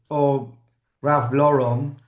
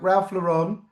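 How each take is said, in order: First: The name is said in an American way. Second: The name is said in a non-American way.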